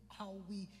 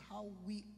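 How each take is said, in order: Both takes have the same delivery.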